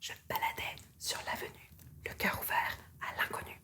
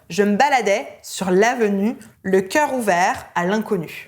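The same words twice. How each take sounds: First: It is whispered with lots of air. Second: It is said in full voice.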